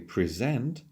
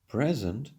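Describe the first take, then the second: First: The stress is on the second syllable. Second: The stress is on the first syllable. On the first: It is a verb. "here it's a verb" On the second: It is a noun or an adjective. "when we stress the first syllable"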